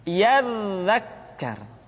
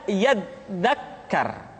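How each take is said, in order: Both takes have the same delivery.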